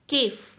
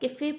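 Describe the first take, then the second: First: The word ends with no final vowel sound. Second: The word ends with a clear 'ay' vowel sound. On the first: The letter has no accent mark. The speaker calls it wrong. "अगर normal हम ई लिखते सी A F E तो generally इसको क्या pronounce करते हैं" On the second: The letter carries an accent mark. The speaker calls it right. "ई को हम यहाँ पर ए की तरह प्रोनाउंस करेंगे"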